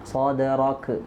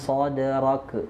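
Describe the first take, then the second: No difference in how they are said.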